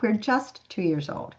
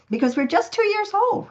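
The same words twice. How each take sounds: First: "just" leaned on slowly; slower emphatic. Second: "two" leaping much higher; thrilled it's so new; excited. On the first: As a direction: let it land, amazed. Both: Real, not acted.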